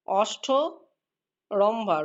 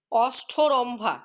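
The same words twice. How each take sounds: First: অষ্ঠরম্ভা stretched out, each syllable separate; very slow dictation. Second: অষ্ঠরম্ভা said very slowly with breathy ঠ and ভ; slow dictation. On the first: Teacher spelling the word out on the board, very slow. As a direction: crawl through অষ্ঠরম্ভা while writing it. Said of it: "অ মূর্ধন্য ষয়ে ঠয়ে". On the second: Teacher dictating a word to pupils, very slow. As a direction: draw out অষ্ঠরম্ভা syllable by syllable, aspirates kept. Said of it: "তোমরা নিশ্চয়ই এটা পারবে বলতে". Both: Shown as a demonstration.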